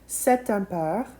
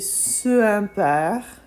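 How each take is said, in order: First: A t sound links the two words. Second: The two vowels meet with no linking sound. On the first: The speaker calls it right. "we use cet. We just add a T" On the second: The speaker calls it wrong. "It would be a little awkward to say"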